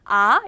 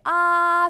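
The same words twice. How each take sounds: First: The pitch rises from low to high. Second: The pitch stays high and level. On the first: "이렇게 올려서 발음이 나고요" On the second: "일성은 아라고 소리가 납니다"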